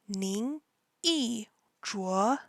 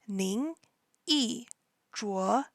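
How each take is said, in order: No difference in how they are said.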